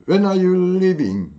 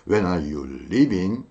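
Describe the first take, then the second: First: Slow and higher, WHEN stressed, falling end; felt, higher, falling. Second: Slow, low, ending rising; chunked, felt. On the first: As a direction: lean on when and let it fall. (when에 힘주고 끝을 내려서) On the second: (천천히 조각내며 끝을 올려) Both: Shown as a demonstration. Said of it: "이런 식으로 느끼면서".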